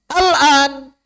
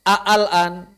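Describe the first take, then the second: First: Only one a-sound is heard at the start. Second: Two separate a-sounds are heard at the start. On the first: "Hamzah wasalnya gugur, ... Tidak dibaca" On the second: "Sesuai kaidah nggak kalau baca seperti itu? ... Tidak"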